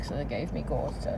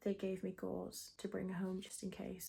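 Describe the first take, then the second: First: Muffled around gauze wads; words blurred by gauze in mouth; talking with gauze in mouth. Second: Said in the usual way. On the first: Real, not acted. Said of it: "Sorry if I'm talking weird". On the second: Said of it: "I forgot to say".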